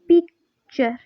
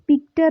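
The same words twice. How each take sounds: First: The middle sound is a 'ch'. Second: The middle sound is a plain 't'. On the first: The speaker calls it right. "बल्कि हम इसको क्या बोलेंगे" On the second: The speaker calls it wrong. "हम इसको पिक्चर नहीं बोलेंगे"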